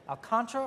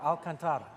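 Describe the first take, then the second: First: Alcantara as al-KAHN-truh, three syllables; trying out a pronunciation. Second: Alcantara as al-kan-TAH-ruh, four syllables; alternative pronunciation. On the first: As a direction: stress the KAHN in Alcantara, swallowing the next vowel. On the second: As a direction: stress the TAH in Alcantara, sounding every vowel. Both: Shown as a demonstration. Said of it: "gonna have to try and learn, is it".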